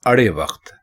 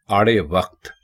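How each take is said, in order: First: अड़े वक्त with a short first a: अड़े; correct pronunciation. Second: आड़े वक्त with a long open आ: आड़े; wrong pronunciation. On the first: Teacher giving the correct form: अड़े with short अ. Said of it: "दुरुस्त है". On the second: Teacher showing the common mistake: आड़े with long आ. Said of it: "आड़े वक्त गलत है". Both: Shown as a demonstration.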